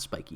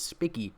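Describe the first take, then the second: First: "spiky" with a long i, as in spike; long-i pronunciation. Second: "spicky" with a short i, as in pick; short-i pronunciation. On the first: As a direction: say "spiky" with an eye sound. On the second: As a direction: say "spicky", rhyming with picky. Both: Shown as a demonstration. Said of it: "not spiky".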